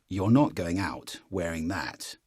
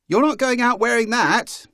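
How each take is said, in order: First: Lower, slow from the chest; chest voice scold. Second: Higher and louder shrill-free head voice; head voice scold. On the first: Parent scolding from the chest, coach contrasting. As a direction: land it low and firm. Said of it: "difference in the way those land". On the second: Parent scolding in head voice, coach contrasting. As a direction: squeak it out from the head. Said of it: "as opposed to". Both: Shown as a demonstration.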